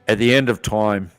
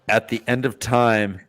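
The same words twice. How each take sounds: First: It is read in a put-on Australian-style accent. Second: It is read in the speaker's natural accent.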